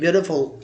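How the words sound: The middle t sounds like a soft d. "American English में चूंकि वो टी की जगह वो डी का साउंड प्रोड्यूस करते हैं"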